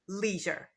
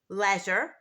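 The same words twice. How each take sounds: First: It is said in an American English accent. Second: It is said in a British English accent.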